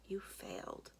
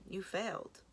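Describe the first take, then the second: First: Quiet echo. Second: Said in the usual way. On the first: Acted. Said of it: "Those two words sting". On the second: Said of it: "Sis accuses Jax".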